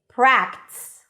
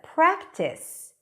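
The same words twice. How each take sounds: First: The word is squeezed into one syllable. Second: The word is said with two syllables. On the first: The speaker calls it wrong. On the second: The speaker calls it right.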